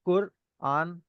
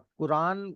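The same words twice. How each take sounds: First: The word is split with a break before 'aan'. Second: The word is said smoothly as one unit. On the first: The speaker calls it right. "कुरान is a better pronunciation." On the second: The speaker calls it wrong. "कुरान हम डायरेक्टली बोल देते हैं, बट वो correct pronunciation नहीं है।"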